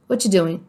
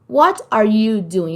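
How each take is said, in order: First: Words run together quickly, dropping one word. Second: Every word is said fully and separately.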